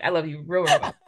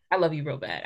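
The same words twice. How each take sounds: First: Playful laughing repeat. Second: Said in the usual way. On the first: Real, not acted. Host teasing her guest with affection, laughing. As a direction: tease it, laughing on the last words.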